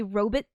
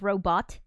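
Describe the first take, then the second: First: First "robot" said as ROH-bit; old-fashioned pronunciation. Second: "robot" with a full "bot" ending; modern pronunciation. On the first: Streamer explaining how they used to say it, "robot" as ROH-bit. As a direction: weaken the end of "robot" to "bit". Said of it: "they used to say robot instead of robot". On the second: Streamer contrasting with the old form, modern "robot" as ROH-bot. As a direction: say "robot" as ROH-bot, second vowel open. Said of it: "Now we say robot". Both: Shown as a demonstration.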